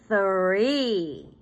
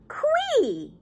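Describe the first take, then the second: First: The word starts with a 'th' sound. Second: The word starts with a 'kw' sound. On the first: The speaker calls it right. "but three" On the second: The speaker calls it wrong. "Not qui"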